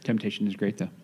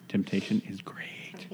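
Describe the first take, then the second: First: Said in the usual way. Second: Slow breathy whisper of temptation. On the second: Acted. Repeats line in whisper.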